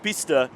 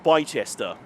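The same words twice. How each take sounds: First: It is said the accepted local way. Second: It is said the way it is spelled. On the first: The speaker calls it right. "Bicester is pronounced Bicester" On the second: The speaker calls it wrong. "not Bicester"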